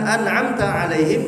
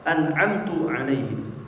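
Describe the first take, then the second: First: The word an'am ends with the vowel a. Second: The word an'am ends with the vowel u. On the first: The speaker calls it right. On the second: The speaker calls it wrong. "atau an'amtu"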